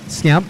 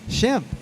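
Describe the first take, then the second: First: The name begins with an 'sk' sound. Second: The name begins with an 'sh' sound. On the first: The speaker calls it wrong. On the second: The speaker calls it right.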